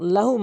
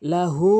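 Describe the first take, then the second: First: The final vowel is short, not stretched. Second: The final vowel is stretched long. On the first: The speaker calls it wrong. "অধিকাংশ লোক লাহু মাফি, এখানে হু টেনে পড়ে না" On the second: The speaker calls it right. "হু এক আলিফ টেনে পড়তে হবে"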